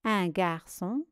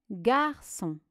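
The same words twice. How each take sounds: First: Said in the usual way. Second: "garçon" as two distinct syllables, gar, çon. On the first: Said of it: "Voici la correction". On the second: Shown as a demonstration. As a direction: dictate "garçon" with its syllables apart. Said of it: "Première syllabe". (« garçon » découpé syllabe par syllabe)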